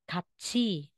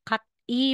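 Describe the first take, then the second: First: The consonant is a ch sound. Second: The consonant is a plain t sound. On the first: The speaker calls it right. "magiging katsi" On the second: The speaker calls it wrong. "Instead na sasabihin mong cat E"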